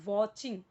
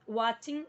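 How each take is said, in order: First: The first vowel is a rounded 'aw' sound. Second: The first vowel is an open 'ah' sound. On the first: The speaker calls it right. "वॉचिंग बोलना है" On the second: The speaker calls it wrong. "वाचिंग नहीं बोलना है"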